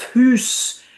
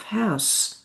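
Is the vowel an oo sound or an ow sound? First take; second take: oo; ow. First: The vowel is a long oo sound. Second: The vowel is an ow sound. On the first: This is the older pronunciation. "The U of hoose" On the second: This is the later pronunciation. "transformed into the ow of house"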